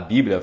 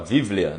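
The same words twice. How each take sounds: First: The word begins with a b sound. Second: The word begins with a v sound. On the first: "Em vez de falar Bíblia" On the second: "eles pronunciam o B com som de V"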